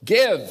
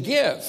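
First: Give, shouted higher and louder; loud exclamation of command; exclaimed command. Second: Give, pitched higher with a bit of oomph; Jesus giving a firm command. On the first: Shown as a demonstration. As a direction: bark it as an order from Jesus. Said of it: "There should be an exclamation mark after the word give". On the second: Pretend. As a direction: raise the voice a little on this order. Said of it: "putting a little bit of oomph in his voice".

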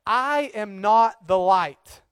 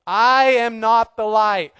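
First: I am not the light, said slowly and evenly; slow, deliberate \"I am not the light\"; slow emphatic. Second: I am not the light, slow and much louder; louder, preaching. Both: Shown as a demonstration. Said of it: "get this through their head".

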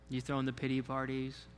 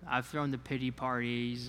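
First: "you thrown the pity parties?" with a rising question tune, a little softer. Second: Said in the usual way. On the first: Shown as a demonstration. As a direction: turn it back on the audience as a question.

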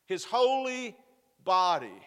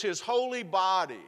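First: Holy lifted high, then body pushed out louder; emphasis on holy body. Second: Said in the usual way. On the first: Acted. Preacher driving home the holy body, emphatic. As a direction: hit holy high and land body hard.

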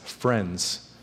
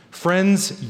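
First: Much softer and lower, almost hushed; soft tender repeat. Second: Said in the usual way. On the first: Real, not acted. Pastor tenderly repeating friends to his congregation, hushed. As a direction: lean in and say it gently.

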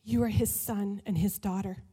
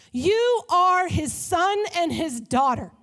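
First: Quiet, tender "you are his son and his daughter"; soft sincere. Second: YOU are his son and his daughter, loud, slow and high; loud preaching. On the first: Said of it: "repeated line, softer". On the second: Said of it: "repeated line". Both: Shown as a demonstration.

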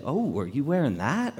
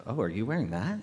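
First: Lightly interested question, lilting up; pleasantly curious, acted question; approving take. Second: Lower, softer, doubtful question; acted judgmental question, held back; disapproving take. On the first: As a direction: ask it as if you like the outfit. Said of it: "the way you say things matters". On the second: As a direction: ask it as if you dislike the outfit. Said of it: "big difference, same words". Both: Shown as a demonstration.

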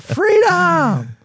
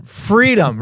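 First: High, loud Scottish battle cry; Braveheart Freedom yell. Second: Loud Scottish battle cry; Braveheart Freedom yell. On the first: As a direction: stretch it out like Mel Gibson in a kilt. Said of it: "Little Mel Gibson Braveheart". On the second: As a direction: shout it like Braveheart. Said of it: "put a Scottish accent in it too". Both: Pretend.

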